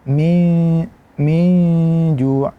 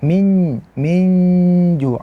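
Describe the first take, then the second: First: The n is hidden with a nasal sound. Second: The n is pressed straight into the j. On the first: The speaker calls it right. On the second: The speaker calls it wrong. "Jangan kita baca"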